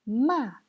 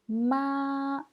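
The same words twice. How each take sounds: First: The pitch falls sharply from high. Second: The pitch stays high and level. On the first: "Quatrième ton" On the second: "Premier ton"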